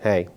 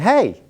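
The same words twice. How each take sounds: First: The greeting is said in a cold, unfriendly tone. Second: The greeting is said in a warm, friendly tone. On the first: The speaker dislikes the person being greeted. "if there's someone that you don't like" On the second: The speaker likes the person being greeted. "Or if you like them"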